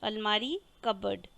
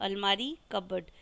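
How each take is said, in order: The two takes are said the same way.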